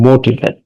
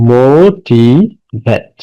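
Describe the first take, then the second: First: Said in the usual way. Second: "motivate" drawn out very slowly, pausing between মো, টি and ভেট; slow teaching breakdown of "motivate", one syllable at a time. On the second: Shown as a demonstration. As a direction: break "motivate" into three long, separate syllables. Teacher splits word to count syllables.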